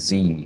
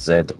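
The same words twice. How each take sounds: First: The letter is named the American way. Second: The letter is named the non-American way. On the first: "You say Z" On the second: "instead of Z"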